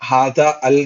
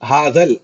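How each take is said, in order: First: The two words are pronounced as separate units. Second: The two words are blended into one unit. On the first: The speaker calls it wrong. "ऐसा कभी भी इसको हादा अल नहीं पढ़ेंगे" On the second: The speaker calls it right. "हादल मिक्स, तुम कंबाइन कर देते हैं ना"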